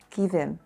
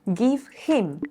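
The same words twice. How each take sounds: First: The vowel in him is reduced. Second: The vowel in him is full.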